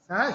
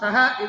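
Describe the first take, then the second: First: The high pitch falls on the first syllable. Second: The high pitch falls on the last syllable. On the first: "சகவை தேவானாச்சாரத்து ஆதிதாத்தம்" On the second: "பிரம்மணா சகான்னு அர்த்தோதாத்தம்"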